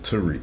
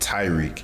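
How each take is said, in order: First: The name is said as Tariq. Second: The name is said like the name Tyreek. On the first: This is the name's actual pronunciation. The speaker calls it right. "it's it's Tariq" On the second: This is how other people mispronounce the name. The speaker calls it wrong. "they pronounce it like Tyreek"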